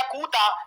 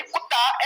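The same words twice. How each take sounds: First: कूता with drawn-out oo and single t; wrong long vowel. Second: कुत्ता with short u and doubled t; correctly pronounced कुत्ता, short first vowel. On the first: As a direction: stretch the first vowel of कूता. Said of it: "ये कूता होता है". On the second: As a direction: say कुत्ता with a quick u, holding the tt. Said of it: "ये कुत्ता होता है". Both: Shown as a demonstration.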